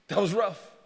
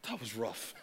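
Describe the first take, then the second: First: Said in the usual way. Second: Hushed. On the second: Acted. Preacher repeats line, first hushed.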